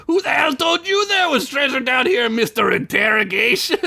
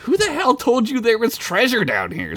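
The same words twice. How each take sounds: First: Very high mocking yell; angry, squawking mimicry; yelled, pissed off. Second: High, incredulous demand; indignant acted questioning. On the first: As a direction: throw the question back in a screechy parody. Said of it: "Gunk yelled, getting more pissed". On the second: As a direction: ask it sharply, pitched up. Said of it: "Sid asked". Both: A narrator's reading.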